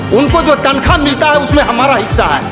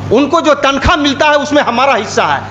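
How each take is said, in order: The two takes are said the same way.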